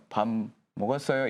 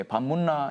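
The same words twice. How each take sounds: First: Said in the usual way. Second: "밥 묻나?" lightly said in Daegu dialect, rising at the end; a hint of Daegu dialect, quoting a senior. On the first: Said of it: "이렇게 저 몰라가지고". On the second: Shown as a demonstration. Senior teaching dialect to a foreign student, lightly mimicked Daegu accent. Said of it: "이렇게 가르쳤어요".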